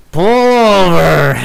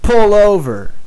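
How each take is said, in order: First: Put-on slow, drawn-out, louder and higher drunk command; insistent drunk friend. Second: A touch higher, imitating a drunk friend's command; drunk friend's order. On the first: Drunk Brian hitting the driver's arm again, slow insistent demand. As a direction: stretch it out like he means it now. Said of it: "he hits me again and he's like". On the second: Drunk friend in the car telling the driver, mock insistent. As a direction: toss off the drunk buddy's demand. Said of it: "he hits me in the arm and he says".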